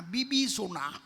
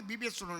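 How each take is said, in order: First: "বিবিসোনা" said as bibi-sona, with the e and ch turned to i and s; "বিবিসোনা" in the uncle's rustic way; village pronunciation. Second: "বিবেচনা" said the standard way, as bibechona; "বিবেচনা" as the doctors say it; standard pronunciation. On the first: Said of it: "এটা হবে বিবেচনা না". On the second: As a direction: say "বিবেচনা" plainly, bi-be-cho-na. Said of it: "উচ্চারণটা ওদের হয় না". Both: Retold or imitated.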